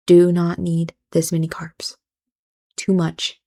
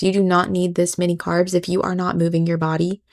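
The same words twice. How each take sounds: First: Whispered repeat. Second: Said in the usual way. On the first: Real, not acted.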